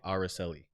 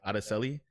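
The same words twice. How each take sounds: First: The name is said with an American accent. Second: The name is said with a Spanish accent. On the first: "in a American tongue, you say" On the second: "it took me a while to get that girl's name right"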